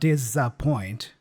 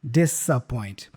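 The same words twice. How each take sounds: First: The middle consonant is a buzzing Z sound. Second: The middle consonant is a hissing S sound. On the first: "instead of disappoint with a Z" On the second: "the S there is also pronounced as an S sound"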